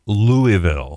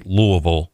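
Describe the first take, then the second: First: "Louisville" sounded out slowly as LOO-ee-vil; "Louisville" in three full syllables, outsider style; careful pronunciation. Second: Said in the usual way. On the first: Shown as a demonstration. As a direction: say "Louisville" with a clear "ee" in the middle, drawn out. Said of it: "say Louisville". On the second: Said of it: "don't say Louisville".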